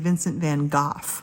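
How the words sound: The name is said with a British pronunciation. "I hear my U K friends say"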